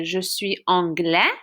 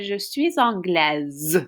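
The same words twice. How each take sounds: First: Slowed anglais ending on a vowel, silent S; masculine pronunciation. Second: Slow anglaise ending in a long Z sound; feminine pronunciation. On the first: Teacher shows a boy's sentence, anglais with silent S. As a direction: leave the S off the end of anglais. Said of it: "a boy would say". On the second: Teacher shows a girl's sentence, anglaise ending in Z. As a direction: link suis with Z, end anglaise "-glezz". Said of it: "pronounce that S like a Z". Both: Shown as a demonstration.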